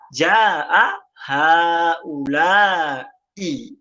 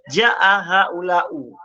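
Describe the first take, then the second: First: The last word ends with an i vowel. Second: The last word ends with a u vowel. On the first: The speaker calls it right. "Dia tetap dibaca" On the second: The speaker calls it wrong. "tidak perlu dibaca"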